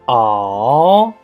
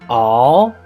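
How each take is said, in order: First: The pitch dips down and then rises. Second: The pitch rises from mid to high. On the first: "The third tone, remember, down and up" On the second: "The second tone is a rise tone"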